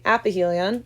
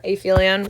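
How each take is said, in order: First: "aphelion" said as app-uh-HEE-lee-on; pronounced app-uh-HEE-lee-on. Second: "aphelion" said as ay-FEE-lee-on; pronounced ay-FEE-lee-on. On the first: Teacher offering one way to pronounce it, "aphelion" as app-uh-HEE-lee-on. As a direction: say "aphelion" with a short a, a p sound, then HEE. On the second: Teacher offering the other way to pronounce it, "aphelion" as ay-FEE-lee-on. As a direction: say "aphelion" with a long A, then an f sound in FEE. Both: Shown as a demonstration. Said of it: "however you're supposed to pronounce it".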